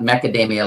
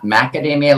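First: It begins with a 'meck' sound, like mecca. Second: It begins with a 'mack' sound, like the nut. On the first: The speaker calls it right. "macadamia, like mecca" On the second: The speaker calls it wrong. "Not macadamia, like the nut"

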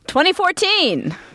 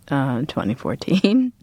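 First: It is said loudly, with lots of energy. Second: It is said flatly, with little energy. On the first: The speaker calls it right. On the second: The speaker calls it wrong.

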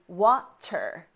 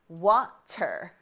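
Both takes have the same delivery.

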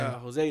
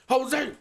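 First: It is said hesitantly and unsure. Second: It is said firmly and confidently.

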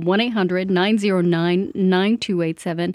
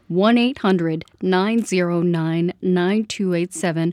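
First: The number is said fast. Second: The number is said slowly.

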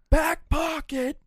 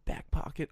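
First: It is said loudly. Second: It is said quietly. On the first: The speaker is trying to be heard on the phone. "keep getting louder" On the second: The speaker does not want coworkers to hear. "trying to quietly say"

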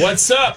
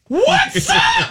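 First: It is said in a normal-pitched voice. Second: It is said in a very high voice.

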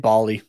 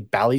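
First: The first vowel sounds like 'Bolly'. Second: The first vowel does not sound like 'Bolly'. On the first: The speaker calls it wrong. "I've been saying Bally" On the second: The speaker calls it right. "it's apparently Bally Sports. I've been saying it wrong the entire time"

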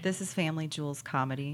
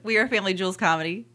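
First: It is said at a slower pace. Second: It is said at a faster pace.

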